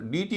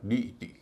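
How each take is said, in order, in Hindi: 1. शब्द को दो अक्षरों में समेटकर बोला जाता है। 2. यह शब्द तीन अक्षरों में बोला जाता है। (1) "इसको डी टी नहीं कहेंगे" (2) "इसका उच्चारण होगा डी ई टी"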